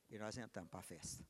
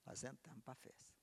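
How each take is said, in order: First: Soft hushed whisper. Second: Said in the usual way. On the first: Acted. Preacher whispering the entry into the feast, hushed whisper. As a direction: breathe the words in a whisper. Whispered, then repeated aloud.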